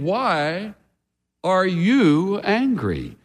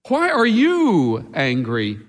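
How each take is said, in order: First: The stress is on the word angry. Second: The stress is on the word you.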